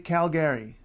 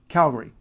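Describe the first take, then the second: First: The ending sounds clearly like the name Gary. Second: The ending is reduced, not like Gary. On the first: The speaker calls it wrong. "Don't say Calgary. There's no Gary" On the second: The speaker calls it right. "It's Gary left town"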